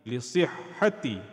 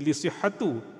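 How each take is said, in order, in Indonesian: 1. Kata ini berakhir dengan vokal 'i'. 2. Kata ini berakhir dengan vokal 'u'. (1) "dia akan jadi lisihhati" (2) "dia tak jadi lisihhatu"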